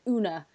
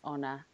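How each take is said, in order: First: The name starts with an oo vowel. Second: The name starts with an oh vowel. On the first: The speaker calls it wrong. "they pronounce it Una because of the double O" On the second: The speaker calls it right. "it's Honor"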